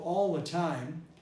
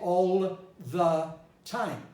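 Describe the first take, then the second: First: The 'th' sound is absorbed into the L. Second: The 'th' sound is pronounced clearly and separately. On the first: The speaker calls it right. "when I say, for example, all the time" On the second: The speaker calls it wrong. "I don't say all the time"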